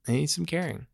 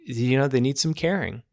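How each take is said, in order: First: Much softer, almost to himself; a hushed echo of the line before. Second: Said in the usual way. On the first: Real, not acted. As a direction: let the repeat fall away quietly. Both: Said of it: "repeats the phrase more softly".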